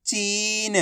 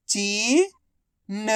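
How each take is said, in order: First: चीन joined as one soft word with long ee; blended word. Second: चीन split as ची, long pause, न; syllable by syllable. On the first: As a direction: blend ची and न into चीन without a gap. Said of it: "तो मिलके बन जाएगा". (चीन को मिलाकर बोलें) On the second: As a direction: sound out चीन slowly, ची rising, then न alone. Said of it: "एक अक्षर की पहचान करो, उनका उच्चारण करो". (चीन को अक्षर-अक्षर अलग बोलें) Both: Shown as a demonstration.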